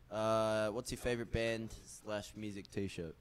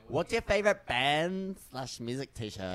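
First: It is read flatly, with no enthusiasm. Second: It is read with energy and enthusiasm. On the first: The speaker calls it wrong. "Why do you say it with no passion?" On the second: The speaker calls it right.

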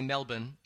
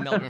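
First: The r sound in the word is dropped. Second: The r sound in the word is pronounced. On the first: It refers to the city in Australia. "When you're in Australia, you say Melbourne" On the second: It refers to the city in Florida. "like when I'd say Melbourne, Florida"

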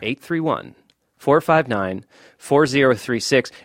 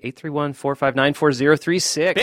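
First: The number is said more slowly. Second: The number is said at normal speed.

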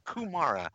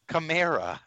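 First: The first vowel sounds like 'oo'. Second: The first vowel sounds like 'ah'. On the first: The speaker calls it wrong. "You fucking put a goddamn U in his name" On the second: The speaker calls it right. "It's Kamara"

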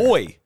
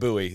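First: The word is said the British way. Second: The word is said the American way. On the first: "How do they pronounce it there?" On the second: "that's how we pronounce it in the US"

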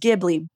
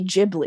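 First: The word begins with a hard G sound. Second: The word begins without a hard G sound. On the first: "the correct way to say that word is Ghibli" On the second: "Miyazaki can't pronounce G's, so they say Ghibli"

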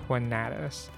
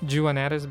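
First: The name is said with a Spanish pronunciation. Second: The name is said with a non-Spanish pronunciation. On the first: This is the form people normally use locally. "in Spanish pronunciation, it's actually Juanatis" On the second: This is the easier form to remember. "I still pronounce it as Juanatis because it's easier to remember"

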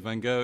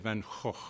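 First: It is said the way people say it here. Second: It is said the Dutch way.

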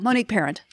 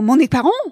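First: The surname is pronounced with English sounds. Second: The surname is pronounced with French sounds. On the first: This is how the name's owner says it. "And I'm like, no" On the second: This is how the French said the name should be. "I had the French correct me on the pronunciation of my name"

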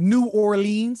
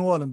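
First: The two words are said as separate words. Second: The two words run together into one word.

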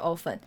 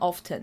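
First: The t sound is silent. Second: The t sound is pronounced. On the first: "我们以前小时候学often" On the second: "t 就在那里，为什么不发音，就会念成often"

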